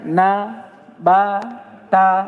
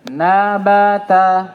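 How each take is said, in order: First: Each syllable is said separately with pauses. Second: The syllables run together without pauses. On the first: The speaker calls it wrong. "tidak boleh lagi kita baca" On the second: The speaker calls it right. "Langsung dibaca sambung"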